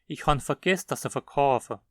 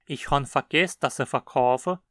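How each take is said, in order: No difference in how they are said.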